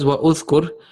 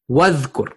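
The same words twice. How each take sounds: First: A glottal stop and vowel come before dhkur. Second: Wa links straight into dhkur without a stop. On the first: The speaker calls it wrong. "He didn't pronounce it as Wa'udhkur" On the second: The speaker calls it right. "he pronounced it as Wa'udhkur"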